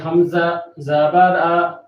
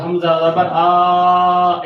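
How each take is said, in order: First: The final vowel is short and even. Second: The final vowel is drawn out long. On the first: The speaker calls it right. "Normal तरीके से पढ़ना है" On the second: The speaker calls it wrong. "लंबा से मुराद हमज़ा ज़बर आ ऐसे नहीं पढ़ना"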